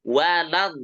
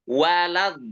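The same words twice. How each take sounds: Both takes have the same delivery.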